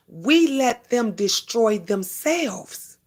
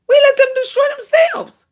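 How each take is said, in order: First: Said in the usual way. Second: Much higher, louder repeat of the line; high emphatic repeat. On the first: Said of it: "repeats it louder". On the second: Shown as a demonstration. Preaching to viewers about haters, repeating it high and loud. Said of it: "repeated with emphasis".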